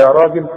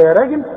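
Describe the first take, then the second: First: "راجل" with a full, heavy "raa"; correct heavy ra. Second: "راجل" said "reegel", ra thinned; wrong thin ra. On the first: Teacher shows everyday way of calling someone, heavy ra. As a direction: say "راجل" with open back vowel after ra. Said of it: "ولا". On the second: Teacher mocks calling someone this way, thin ra. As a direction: mispronounce "راجل" with a light front vowel. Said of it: "عمرك تلاقي واحد تقول لواحد". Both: Shown as a demonstration.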